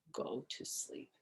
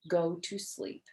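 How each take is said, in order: First: Breathy whispered read; soft whispered words. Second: Said in the usual way. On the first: A narrator's reading. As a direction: hush it right down. Crossing the note out.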